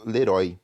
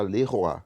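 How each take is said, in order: First: Leroy as "le-RÓI", oy like "oi"; Portuguese reading. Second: Leroy as "le-ro-A", oy becoming "oa"; French pronunciation. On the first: Teacher showing how Brazilians would read it, Portuguese pronunciation. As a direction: say Leroy by Portuguese spelling, ending "ói". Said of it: "em português a gente falaria como". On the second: Teacher correcting the reading for students, French pronunciation. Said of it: "aqui a gente fala Leroy". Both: Shown as a demonstration.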